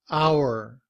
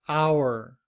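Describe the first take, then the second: No difference in how they are said.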